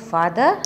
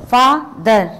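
First: Said in the usual way. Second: FATHER broken in two, FA - THER, with a gap; louder, drawn-out father, one syllable at a time; split by syllables. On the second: Shown as a demonstration. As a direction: say father slowly and forcefully as two separate beats, fa... ther. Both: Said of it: "दो चीज़ों को मिलाकर बोला जाता है".

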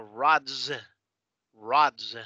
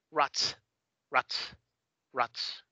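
First: Rods con la S final sonora, vibrante. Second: Rots con S final sorda, silbada. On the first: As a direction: haz zumbar el final de rods. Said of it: "O puede ser Z". (rods terminado en zumbido de Z) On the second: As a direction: termina rots con una S sin vibración. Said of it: "O puede ser S". (rots con ese final de español) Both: Shown as a demonstration.

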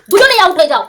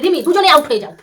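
First: Raised, emphatic telling-off; loud scolding repeat; louder insistent repeat. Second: Said in the usual way. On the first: Real, not acted. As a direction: push the repeat harder and higher. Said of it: "repeated louder". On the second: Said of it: "repeated with force".

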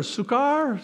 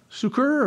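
First: "succor" said as "soo-KAR"; trying another pronunciation. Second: "Succor" said as "soo-ker"; trying a pronunciation. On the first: Preacher unsure how to say it, "succor" as "soo-kar". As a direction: end "succor" on an open "kar". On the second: Preacher unsure how to say it, "Succor" as "soo-ker". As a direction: say "Succor" with a long oo, ending in er. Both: Shown as a demonstration. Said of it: "how do you say it?".

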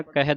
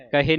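First: ਕਹਿ ending in open ai, kahai; open final vowel. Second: ਕਹੇ ending in a close e; wrong final vowel. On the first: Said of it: "ਦਲਾਵਾਂ ਦੇ ਨਾਲ". (ਕਹਿ ਦੁਲਾਵਾਂ ਨਾਲ) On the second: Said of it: "ਕਹੇ ਨਹੀਂ ਪੜ੍ਹਨਾ". (ਕਹੇ, ਇੱਕ ਲਾਂ ਨਾਲ) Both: Shown as a demonstration.

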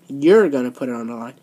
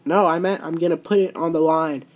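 First: Mocking echo. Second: Said in the usual way. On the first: Boss parrots the champion's words back lower to mock her. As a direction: echo "You're gonna put it on the line" lower, in a mocking sing-song. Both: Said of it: "Are you just mocking me?".

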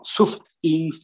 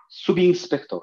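First: "Subins" broken between sub and ins; wrongly split word. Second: Said in the usual way. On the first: Shown as a demonstration. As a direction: chop "Subins" after the B. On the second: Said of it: "tal como habla".

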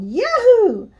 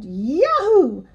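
First: Very high, loud whoop; Elmo yelling. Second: High, moderate storybook yahoo; yelling cowboy. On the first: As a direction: answer with a louder, higher yahoo. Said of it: "I yelled". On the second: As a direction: whoop it like a triumphant rider, restrained. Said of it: "up into the air and yelled". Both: A narrator's reading.

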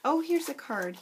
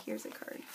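First: Said in the usual way. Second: Breathy whisper to herself. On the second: Real, not acted. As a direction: hush it, just for yourself. Finds card, repeats it whispered.

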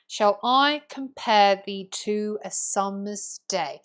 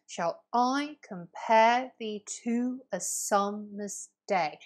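First: Slow iambic reading, stresses marked; poetic reading. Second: Slow da-DUM beats, "compare" and "day" hit hard; iambic stress reading. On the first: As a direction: read it as verse, leaning on each beat. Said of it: "when I read it out poetically". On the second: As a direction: tap out each unstressed-stressed foot. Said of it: "You'll notice from my reading". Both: Shown as a demonstration.

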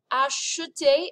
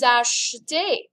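First: "acheter" higher, with a clear "uh" in the middle; exaggerated vowel. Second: Slow, louder "achetez" with a faint middle e; glossed-over vowel. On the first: Teacher exaggerates it for class, "acheter" with the e sounded. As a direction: overdo the e in "acheter": "ah-shuh-tay". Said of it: "if I exaggerate it". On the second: Teacher shows class the vous form, "achetez" with a faint e. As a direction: say "achetez" nearly as "ash-tay". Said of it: "you just kind of gloss over that vowel sound". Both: Shown as a demonstration.

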